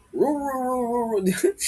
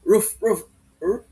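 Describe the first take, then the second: First: Higher baying roof roof like a beagle; beagle bark. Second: A hint of a barking dog; lightly voiced roof roof. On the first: Teacher imitating how beagles bark, higher baying. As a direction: howl it like a beagle. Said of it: "Di ba ganun tumahol yung mga beagle". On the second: Teacher imitating an ordinary dog barking, light. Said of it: "pag tumahol yan". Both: Shown as a demonstration.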